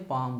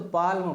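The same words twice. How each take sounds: First: "पाम" with no ल, long आ straight into म; silent L. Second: "पाल्म" with the ल sounded before म; L pronounced. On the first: Teacher showing students the correct reading, "पाम" with ल silent. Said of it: "लेकिन यल क्या है? Silent है". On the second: Teacher showing students the spelling-based reading, "पाल्म" with ल sounded. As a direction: say "पाल्म" as spelt, voicing the ल. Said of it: "इसको अगर पढ़ते तो". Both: Shown as a demonstration.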